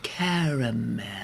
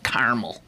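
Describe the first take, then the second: First: The word is drawn out and elongated. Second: The word is said short and clipped. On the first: This is how people in the South say it. "that is the pronunciation that is used in the South ... elongate everything" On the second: This is how people around here say it. "up here, in these here parts, I would say caramel"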